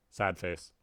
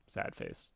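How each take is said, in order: First: Put-on sulky sad face from the cat girl; cat girl sulking. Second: Much lower, breathy whispered sad face. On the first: Cat girl sulking after being overruled, pouting. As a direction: pout it out. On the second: Acted. Cat girl sulking to Tavros, whispered.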